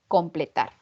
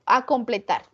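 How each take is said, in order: First: The word starts directly with "com". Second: The word starts with an extra "a" sound. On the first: The speaker calls it right. "Lo correcto" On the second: The speaker calls it wrong. "Otra palabra incorrecta"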